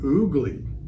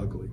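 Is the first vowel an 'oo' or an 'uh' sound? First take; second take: oo; uh. First: The first vowel is an 'oo' sound. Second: The first vowel is an 'uh' sound. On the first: This is how people in Jamaica say it. "Jamaicans pronounce the name oogly" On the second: This is how the reader and listeners will say it. "but we'll call it ugly"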